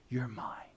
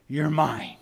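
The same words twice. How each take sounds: First: Very soft, nearly whispered; hushed reassurance. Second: Tender claim. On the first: Shepherd reassuring the sheep he called, hushed. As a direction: sink to a tender hush. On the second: Shepherd claims the sheep, first take. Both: Acted.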